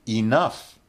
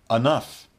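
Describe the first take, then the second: First: It is said in its full, careful form. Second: It is said in a somewhat reduced form.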